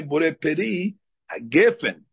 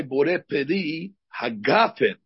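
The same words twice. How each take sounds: First: "hagafen" said ha-GEH-fen, with a short E; short EH in the middle of "hagafen". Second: "hagafen" with an open AH in GAH; slow blessing, stressed AH vowel in "hagafen". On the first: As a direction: say "hagafen" with GEH in place of GAH. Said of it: "The Sfaradim say". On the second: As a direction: say "hagafen" as ha-GAH-fen, slowly. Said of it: "when they say the beracha". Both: Shown as a demonstration.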